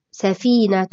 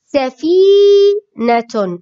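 First: Said in the usual way. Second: سفينة slowly, with a long loud held "fii"; demonstrated pronunciation. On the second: Shown as a demonstration. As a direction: stretch the middle of سفينة, sa-fiii-natun. (نطق سفينة ببطء مع مد الياء) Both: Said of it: "نطقها".

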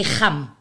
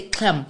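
First: "Kham" with a throaty Khoi G; Khoi pronunciation. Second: "Kham" with a plosive Xhosa K; Xhosa pronunciation. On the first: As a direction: scrape the first sound of "Kham" in the throat. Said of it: "but in Khoi we say Kham". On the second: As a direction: open "Kham" on a hard K, no throat friction. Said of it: "The, the Xhosas will say Kham". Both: Shown as a demonstration.

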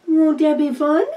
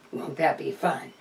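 First: "Won't that be fun?" sung out high and loud; a bright singsong lift on "Won't that be fun?"; gushing up high. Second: Said in the usual way. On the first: Acted. Cooing the question to the viewers, high and loud.

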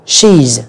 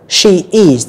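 First: "she's" as one syllable; single joined syllable, "she's"; contracted form. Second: "She is" as two full words; both words of "She is" clearly sounded; full form. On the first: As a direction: squeeze "she is" into "she's". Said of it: "các bạn đọc là". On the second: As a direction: say "She is" uncontracted. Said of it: "chúng ta đọc đầy đủ". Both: Shown as a demonstration.

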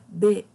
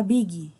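First: "big" in one syllable, like "beg"; E sound in "big". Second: "big" as two syllables, "BEE-gee", hard G; wrong Brazilian "big". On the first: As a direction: say "big" with the E of beijo. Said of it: "Como se fosse beijo". ("big" com som de E, como "bêg") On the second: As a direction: add an EE after "big". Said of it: "a gente não fala big". ("big" lido como "bígui") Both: Shown as a demonstration.

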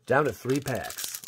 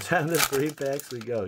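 First: Said in the usual way. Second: Laughing. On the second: Real, not acted.

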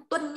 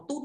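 First: "Tuân" with a w-glide before the vowel, like twɤn; correct pronunciation. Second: "Tun" with a plain u, no glide to a second vowel; mistaken pronunciation. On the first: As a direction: model "Tuân" with its full twɤn sound. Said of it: "cái thằng này đọc là Tuân nhá". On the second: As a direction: show the students' error "Tun", one simple u vowel. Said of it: "nhiều bạn cứ đọc là Tun không phải đâu". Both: Shown as a demonstration.

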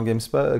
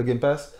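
First: Game Spa- with the s moved before pa; slip of the tongue. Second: Said in the usual way. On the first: Real, not acted. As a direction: trips on Game Spa-, sounding spa.

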